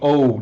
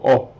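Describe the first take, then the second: First: The vowel glides into a w sound. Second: The vowel stays pure without gliding. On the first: This is how English speakers say it. "there's a W there" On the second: This is how Hebrew speakers say it. "In Hebrew, we just go O"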